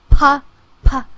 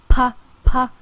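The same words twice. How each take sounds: The two takes are said the same way.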